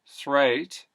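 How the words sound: The vowel starts elsewhere and glides into oh.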